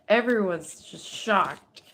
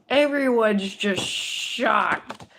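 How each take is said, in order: First: Slow and louder, first take; emphatic statement. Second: Slow, much louder and higher second take; drawn-out loud shock. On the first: Reader stating the crowd's shock before repeating it. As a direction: say it firmly, a bit slow. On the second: Reader repeating the line, louder and slower, to stress the shock. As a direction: stretch it out, stunned and loud. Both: Shown as a demonstration.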